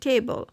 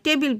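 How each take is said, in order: First: The second syllable has a reduced vowel. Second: The second syllable has a clear 'i' vowel. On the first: This is the actual pronunciation. The speaker calls it right. "কিন্তু আসলে এটা হচ্ছে টেবল" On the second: This is how it is commonly said locally. The speaker calls it wrong. "আমাদের দেশে যে উচ্চারণ"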